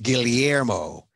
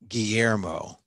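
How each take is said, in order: First: The double L is sounded as l plus y. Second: The double L is sounded as a plain y. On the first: The speaker calls it right. "We say the L and the Y. So it's Guillermo" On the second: The speaker calls it wrong. "we don't say Guillermo. The L's, right? The two L's as Y's"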